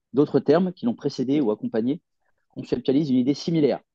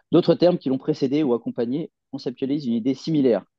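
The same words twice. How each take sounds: No difference in how they are said.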